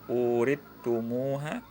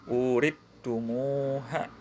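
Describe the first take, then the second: Both takes have the same delivery.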